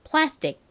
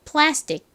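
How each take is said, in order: Both takes have the same delivery.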